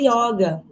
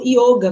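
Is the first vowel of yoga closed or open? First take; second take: open; closed. First: The first vowel is an open o. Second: The first vowel is a closed o. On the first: This is the common Brazilian way. "forma brasileirada" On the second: This is the Sanskrit way. "com o O fechado"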